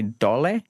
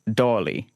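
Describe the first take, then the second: First: It is said the Serbian way, dole. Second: It is said the Croatian way, doli.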